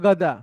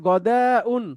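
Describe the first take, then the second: First: The word ends without the 'un' syllable. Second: The word ends with an extra 'un' syllable. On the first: This is the everyday spoken form. "কথ্য ভাষায় বলা হবে গদা" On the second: This is the complete formal form. "পুরোপুরি বললে"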